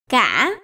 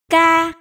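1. Âm tiết được nói với thanh ngã. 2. Âm tiết được nói với thanh ngang. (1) "ngã" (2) "cô sẽ được tiếng ca"

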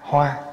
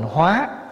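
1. Âm tiết này có thanh ngang. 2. Âm tiết này có thanh sắc. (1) "chữ hoa, H O A" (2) "nếu bỏ dấu sắc vô là thành hóa"

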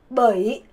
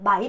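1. 모음은 중설 'uh-ee' 소리예요. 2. 모음은 열린 'ai' 소리예요. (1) "근데 북부는 버 이를 빨려서 머이" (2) "남부는 마이라고 읽어요"

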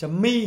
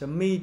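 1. Nó được phát âm theo kiểu tiếng Anh, như 'mee'. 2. Nó được phát âm theo kiểu tiếng Anh, như 'mee'.

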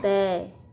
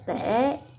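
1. Từ này mang thanh huyền, giọng thấp và đi xuống. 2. Từ này mang thanh hỏi, giọng thấp và uốn xuống rồi lên. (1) "Thêm dấu huyền ra chữ" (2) "Rồi dấu hỏi"

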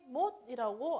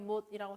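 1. 성조가 올라가요. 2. 성조가 올라가지 않아요.

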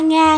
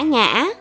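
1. Âm tiết được phát với thanh ngang. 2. Âm tiết được phát với thanh ngã.

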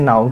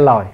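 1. Từ này bắt đầu bằng âm n. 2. Từ này bắt đầu bằng âm l. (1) "hễ n ổng ra l" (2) "kêu cái lòi"

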